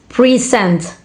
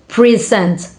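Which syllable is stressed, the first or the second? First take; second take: first; first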